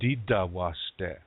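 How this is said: It is said in Dakota, with D sounds.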